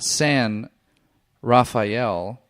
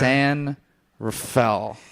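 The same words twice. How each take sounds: First: Each syllable of the name is said fully. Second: The syllables of the name are slurred together. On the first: The speaker calls it wrong. "It's not San Rafael" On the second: The speaker calls it right. "You kind of just blah"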